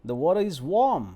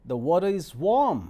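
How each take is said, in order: First: Warm stressed again, louder than plain talk; repeated demo. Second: Warm stressed and lifted, said loud and clear; demo sentence. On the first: Teacher repeating the water is warm for students. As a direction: repeat it with a firm lift on warm. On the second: Teacher demoing the water is warm to students. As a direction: lean on warm and finish it louder. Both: Shown as a demonstration. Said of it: "rising tone में".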